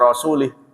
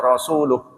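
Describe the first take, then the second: First: The final vowel is i, ending in -ih. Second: The final vowel is u, ending in -uh. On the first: Allah is free of the polytheists and of His Messenger. The speaker calls it wrong. "Ada yang membaca ... wa rasulih" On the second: Allah and His Messenger are free of the polytheists. The speaker calls it right. "Innallaha bari'um minal musyrikin wa rasuluh"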